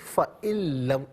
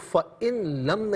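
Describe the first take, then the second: First: The n merges into a doubled l sound. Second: The n sound is heard before the l. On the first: The speaker calls it right. "फ़इल्लम लाम की आवाज़ होगी" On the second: The speaker calls it wrong. "फ़इन लम नहीं"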